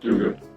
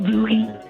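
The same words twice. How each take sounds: First: It is said in the speaker's plain, natural voice. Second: It is said in a put-on, heavily accented impression voice. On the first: The speaker calls it wrong. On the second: The speaker calls it right.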